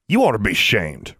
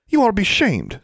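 First: Sneering echo of a reproach; mocking retort. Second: Put-on high-pitched, reproachful girl's voice; indignant girlish reproach; scolding girl. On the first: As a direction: throw the scolding back at her. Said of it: "retorted Benjamin". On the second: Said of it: "said Forbearance". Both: A narrator's reading.

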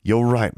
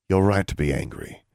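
First: RIGHT lifted higher and louder; "right" said higher and louder, falling at the end; emphatic agreement. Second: Said in the usual way. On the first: Acted. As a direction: lean into "right" to concede. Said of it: "then spoke again, very softly". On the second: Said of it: "very softly".

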